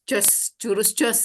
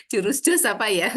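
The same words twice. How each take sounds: First: Jos, jurus jos drawn out slowly, each word stressed; stressed slow naming. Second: Said in the usual way. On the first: Shown as a demonstration. Host correcting herself, naming the trick: slow, stressed "jos". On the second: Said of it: "disebutnya jurus apa ini".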